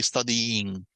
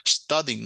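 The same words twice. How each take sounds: First: STUDYING slowly drawn out as study-yiing; wrongly doubled sound. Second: Said in the usual way. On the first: Shown as a demonstration. Teacher showing students what not to say, ending doubled. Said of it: "que ese sonido se duplique". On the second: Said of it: "se pegan en una sola sílaba".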